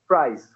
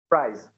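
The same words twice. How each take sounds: First: The word ends in a hissing s sound. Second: The same.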